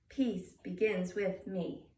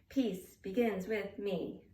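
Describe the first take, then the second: Both takes have the same delivery.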